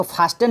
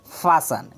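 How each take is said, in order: First: "फास्टेन" with a sounded T; T pronounced. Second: "फासन" with no T sound; silent T. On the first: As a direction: say "फास्टेन", wrongly voicing the silent T as "fas-ten". ("फास्टेन" में टी का उच्चारण करते हुए) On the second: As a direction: say "फासन", the S running straight into the last syllable. ("फासन" में टी silent रखकर) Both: Shown as a demonstration. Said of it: "यहाँ पे टी silent रहता".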